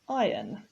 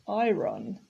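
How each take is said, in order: First: The R sound is silent in the word. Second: The R sound is pronounced in the word. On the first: The speaker calls it right. "the R is silent" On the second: The speaker calls it wrong. "we don't say iron"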